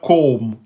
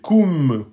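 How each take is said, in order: First: The syllable has an o vowel sound. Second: The syllable has a thin u vowel sound. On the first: The speaker calls it wrong. "c'est pas kom" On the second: The speaker calls it right. "aminci, c'est kum"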